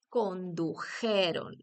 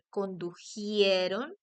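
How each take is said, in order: First: There is no i sound before the e. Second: An extra i sound comes before the e. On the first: The speaker calls it right. "se dice condujeron" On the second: The speaker calls it wrong. "no se dice condujieron"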